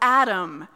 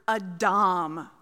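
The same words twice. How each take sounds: First: The name is said the usual English way. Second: The name is said the original Hebrew way.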